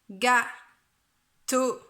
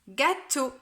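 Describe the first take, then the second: First: It is said in a flat robotic voice. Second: It is said in a natural speaking voice.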